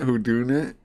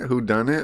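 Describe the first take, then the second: First: The middle part is said as 'doing'. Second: The middle part is said as 'done'. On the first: The speaker calls it wrong. "the A I every time says who doing it" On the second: The speaker calls it right. "I swear it's a who done it"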